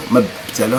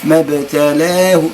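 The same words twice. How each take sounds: First: ما ابتلاه run together with no break after ما; wrong joined reading. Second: ما ابتلاه said carefully and slowly; correct reading. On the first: (قراءة خاطئة) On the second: (القراءة الصحيحة) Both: Shown as a demonstration. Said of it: "هذا خطأ".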